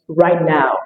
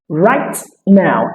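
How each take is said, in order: First: The T sound is held, not released. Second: The T sound is fully released.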